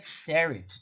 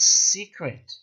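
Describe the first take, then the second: First: The word is said without a k sound. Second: The word is said with a k sound. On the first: The speaker calls it wrong. "she said Serit" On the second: The speaker calls it right. "not secret"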